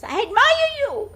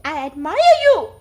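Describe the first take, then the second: First: Mountain echo, very high and loud; echoed shout. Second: High, loud call of admiration; scream to the mountain. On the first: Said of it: "voice answers". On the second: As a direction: shout it out to the mountains. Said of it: "he screams to the mountain". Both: A narrator's reading.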